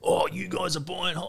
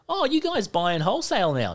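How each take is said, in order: First: It sounds negative and accusing. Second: It sounds friendly and casual.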